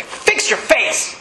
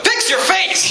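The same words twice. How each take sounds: First: Slow, unvoiced, hard-edged instructor order; drill instructor. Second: Much higher, sharp Fix your face with a push on "Fix"; snapping at someone. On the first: Military instructor to a sulking recruit, slow voiceless order. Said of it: "he'd walk up to you and say". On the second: Pretend. Pastor wishing to rebuke a moody greeter, sharp high command. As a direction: fire "Fix your face!" straight back at the gloomy greeter. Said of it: "I just wanna walk up to him".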